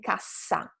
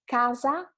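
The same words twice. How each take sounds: First: Cassa with a long, strong SS; double consonant. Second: Casa with a short, light S; single consonant. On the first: Teacher contrasts two words for students, long SS in cassa. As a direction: hold the hiss in cassa. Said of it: "a little bit longer". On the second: Teacher contrasts two words for students, short S in casa. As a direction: keep the middle S of casa brief. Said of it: "longer than a single consonant word". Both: Shown as a demonstration.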